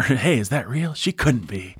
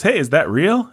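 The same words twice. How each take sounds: First: A hint of John Wayne, hushed and awed; John Wayne impression. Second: High, lightly voiced cowboy exclaiming; a hint of John Wayne, pitched up; John Wayne impression. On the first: Podcaster voicing John Wayne doubting his eyes. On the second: Podcaster voicing John Wayne seeing the beauty. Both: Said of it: "John Wayne says".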